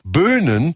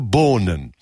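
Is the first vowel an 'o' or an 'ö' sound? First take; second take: ö; o. First: The first vowel is a rounded front 'ö'. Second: The first vowel is a back 'o'. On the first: The speaker calls it right. "Jetzt hätte dieser Helmut im Grunde Böhnen sagen müssen" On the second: The speaker calls it wrong. "er konnte kein Ö ... sondern er sagte Bohnen"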